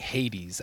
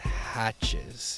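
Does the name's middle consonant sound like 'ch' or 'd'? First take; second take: d; ch. First: The middle consonant sounds like 'd'. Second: The middle consonant sounds like 'ch'. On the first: This is how other people often guess it. The speaker calls it wrong. "I get a lot of people saying Hades" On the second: This is the family's own pronunciation. The speaker calls it right. "That's how I was told it was pronounced"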